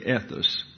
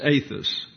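First: The first vowel is a short E sound. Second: The first vowel is a long A sound. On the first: The speaker calls it wrong. "The epsilon gets a regular English E, soft E" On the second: The speaker calls it right. "pronounced as if it were a long A in English"

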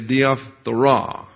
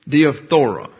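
First: The stress falls on the last syllable. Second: The stress falls before the last syllable. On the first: The speaker calls it right. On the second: The speaker calls it wrong.

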